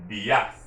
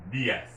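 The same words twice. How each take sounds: First: "dias" said dee-AHS, louder second syllable; stress on the A. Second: "dias" said DEE-as, first syllable stressed. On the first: Teacher showing a hypothetical accent, stress on the A in dias. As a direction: throw the weight onto the a of "dias". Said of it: "We have stressed that A". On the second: Teacher correcting to the real accent, stress on the I in dias. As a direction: put the weight back on the i of "dias". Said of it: "it's over the I". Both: Shown as a demonstration.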